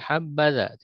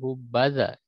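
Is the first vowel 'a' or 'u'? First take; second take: a; u. First: The first vowel is an open 'a'. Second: The first vowel is a rounded 'u'. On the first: The speaker calls it right. "harus fathah" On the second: The speaker calls it wrong. "tidak boleh"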